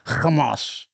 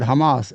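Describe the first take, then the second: First: It starts with a throaty, Arabic-style h sound. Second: It starts with a plain English h sound. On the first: "she wants to be like the the Ingram" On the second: "She could say the H word"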